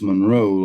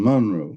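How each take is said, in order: First: It is said the outsider, non-local way. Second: It is said the local Louisiana way.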